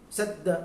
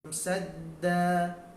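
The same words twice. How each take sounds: First: The word ends with an abrupt, startled stop. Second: The word ends with a soft, calm stop. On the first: The speaker calls it wrong. "itu terkejut" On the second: The speaker calls it right. "letakkan dengan lembut, dengan tenang"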